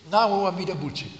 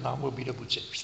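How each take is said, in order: First: It is said slowly, deliberately and with weight. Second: It is said lightly and quickly, in passing. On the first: The speaker is consciously making a show of faith. The speaker calls it wrong. "je moet het niet te bewust willen zeggen. Niet zo" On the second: The trust is expressed spontaneously, without effort. The speaker calls it right. "Je moet het in het voorbijgang zeggen"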